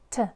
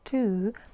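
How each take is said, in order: First: The word has a short, reduced schwa vowel. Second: The word has a full, clear oo vowel. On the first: The speaker calls it right. "here we have a schwa sound" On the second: The speaker calls it wrong. "we don't pronounce the word to here like to"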